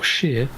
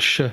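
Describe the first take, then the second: First: The ending rhymes with 'near'. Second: The ending is a bare 'sh' sound. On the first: "or sheer" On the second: "We pronounce it either sh"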